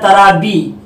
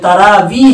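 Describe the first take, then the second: First: The middle consonant is a 'b' sound. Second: The middle consonant is a 'v' sound. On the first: The speaker calls it wrong. "वाव की जगह पर बा का इस्तेमाल करते हैं" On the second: The speaker calls it right. "तो ये तरावी है"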